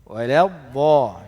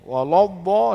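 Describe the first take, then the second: First: The l sound is thin and light. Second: The l sound is thick and heavy. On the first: The speaker calls it right. "itu betul" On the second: The speaker calls it wrong.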